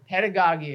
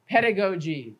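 First: "pedagogy" with an open AH, PED-a-gah-gee; alternative pronunciation. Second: "pedagogy" with a long O, PED-a-go-jee; pronunciation variant. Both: Shown as a demonstration. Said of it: "however you like to pronounce it".

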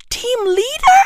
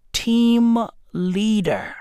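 First: High, rising disbelief; high-pitched, comically scandalised query; incredulous echo. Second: Slow, straight-faced reveal; imitating wife's deadpan answer. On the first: Acted. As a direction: throw it back as an appalled question. Appalled echo of the wife's answer. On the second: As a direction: deliver it dead serious, drawing out each word. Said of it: "dead in the eyes with a straight face".

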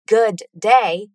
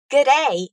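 First: Said in the usual way. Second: "Good day" run together as one short greeting; reduced G'day. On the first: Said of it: "Good day is an abbreviation". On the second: Shown as a demonstration. Teacher shows learners the Australian greeting, "Good day" reduced. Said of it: "a reduction of good day".

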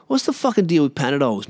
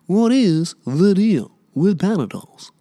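First: Said in the usual way. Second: Higher, slower stand-up bit voice; Jerry Seinfeld impression. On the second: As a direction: do the Seinfeld "what's the deal" shtick. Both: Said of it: "I sound like fucking Jerry Seinfeld".

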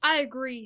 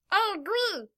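First: Said in the usual way. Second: High-pitched character voice; Kenzo. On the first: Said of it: "said Roberto". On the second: A narrator's reading. Kenzo agreeing before falling asleep, high character voice. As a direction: pitch it well up for a small character. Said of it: "said Kenzo as they all".

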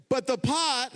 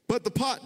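First: Said in the usual way. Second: Real voice crack on a high note. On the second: Real, not acted. Preacher reading Jeremiah to the congregation, voice cracking. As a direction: voice breaks mid-reading. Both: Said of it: "did my voice just crack?".

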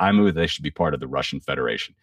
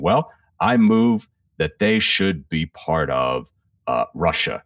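First: Said in the usual way. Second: Slow, halting mock bumble; bumbling official. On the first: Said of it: "And he's like". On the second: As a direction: stumble through it like a flustered bureaucrat. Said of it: "he's bumbling along when he says it".

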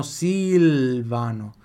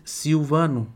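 First: Silvano slowly, with a clear Italian L. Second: Silvano with the L said as U; Brazilian L. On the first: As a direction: Silvano with a true L. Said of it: "Em italiano, Silvano". (Silvano com L italiano claro) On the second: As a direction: Silvano as Siuvano. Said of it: "O L tem som de U". (Silvano com L como U) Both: Shown as a demonstration.

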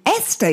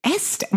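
First: Said in the usual way. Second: Startled high squeak of disbelief; surprised. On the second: Real, not acted. Hearing a friend's odd dog name, a startled high question. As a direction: echo the name back in sudden disbelief.

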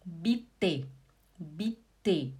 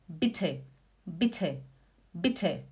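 First: "Bitte" slow as "bi-tê", no puff; two separate low syllables in "Bitte", dry t; Portuguese T. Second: "Bitte" quick and low, puffed t; German aspirated T. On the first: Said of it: "Agora o português". ("Bitte" à portuguesa, t sem sopro) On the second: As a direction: push air through the t of "Bitte". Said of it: "Agora em alemão". ("Bitte" alemão, com t soprado) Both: Shown as a demonstration.

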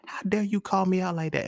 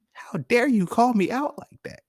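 First: High-pitched mock offence at normal volume; playful indignation. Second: High, loud, drawn-out mock outrage; mock indignation. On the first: Man conceding to the woman who called him out, playfully indignant. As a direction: protest in a high voice, without shouting. Repeats comeback, conceding she was right. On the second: Man protesting to the woman who called him out, loudly indignant. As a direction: stretch it out in a high-pitched, offended cry. Acting out his indignant comeback to her.

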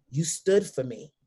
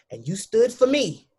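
First: Said in the usual way. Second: "stood for me" lifted higher with weight on "for"; stressed repeat. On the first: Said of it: "first take, then repeated". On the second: Retold or imitated. To her father, repeating her thanks with rising emphasis. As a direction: lean into the repeat of "you stood for me". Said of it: "repeats the line, raised".

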